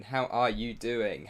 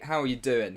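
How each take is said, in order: First: Drawn-out, slower repeat of the question. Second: Said in the usual way. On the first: Real, not acted. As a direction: stretch it out the second time. Greeting viewers in chat, repeated.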